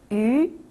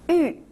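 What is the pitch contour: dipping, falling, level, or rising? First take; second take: rising; falling. First: The pitch rises from mid to high. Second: The pitch falls sharply from high.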